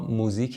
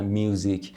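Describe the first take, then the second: First: It is said with a Persian-style pronunciation. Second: It is said with an English-style pronunciation.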